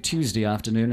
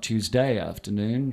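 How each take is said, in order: First: It is said in a formal broadcast accent. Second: It is said in a broad local accent. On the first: The speaker calls it right. "to say Tuesday afternoon" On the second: The speaker calls it wrong. "and not Tuesday afternoon"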